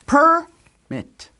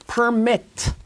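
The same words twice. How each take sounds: First: The stress is on the first syllable. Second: The stress is on the second syllable. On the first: It means a document granting access. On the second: It means to give permission.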